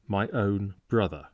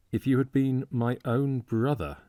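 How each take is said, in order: First: Said in the usual way. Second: My own brother leaned on, higher and weighty; stress on my own brother. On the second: A narrator's reading. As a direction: press hard on my own brother. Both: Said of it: "a singularly strong emphasis on those three words".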